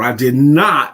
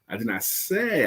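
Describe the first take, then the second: First: The stress falls on the word not. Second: The stress falls on the word say. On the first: It is a firm denial. "It's an emphatic denial" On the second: It may have been implied instead. "I could have implied it"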